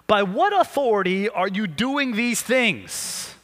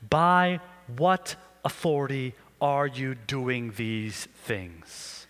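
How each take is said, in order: First: Slow, deliberate demand from the priests; challenging elders. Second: Slow, low, weighty demand; stern priests. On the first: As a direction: press the question slowly. Reading the elders' challenge aloud. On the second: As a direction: draw the question out with menace. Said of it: "the scene kinda looks like this". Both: Acted.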